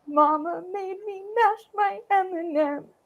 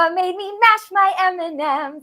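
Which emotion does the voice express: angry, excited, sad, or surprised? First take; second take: sad; excited. First: The voice sounds sad. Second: The voice sounds very excited. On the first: "I could also be really sad about it" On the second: "it's super excited"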